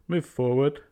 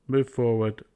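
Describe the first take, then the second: Both takes have the same delivery.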